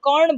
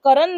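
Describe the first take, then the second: First: The name ends in a retroflex 'rṇ' cluster. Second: The name is said as two full syllables. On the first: The speaker calls it right. "कर्ण बोलते थे, अणों की sound आती थी" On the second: The speaker calls it wrong. "करण नहीं बोलते थे"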